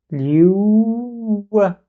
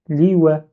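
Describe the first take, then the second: First: "liou wa" with a long held "ou", higher; "liou wa" stretched out as "liouuu-wa"; blocked waw. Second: "Li wa" as two short syllables; "Li wa" simply, "li" then "wè"; without shadda. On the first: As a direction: hold "liou" on the W glide, then release "wa". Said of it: "je bloque le waw". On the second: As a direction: say "Li wa" with no held sound between. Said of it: "il n'y avait pas shadda". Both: Shown as a demonstration.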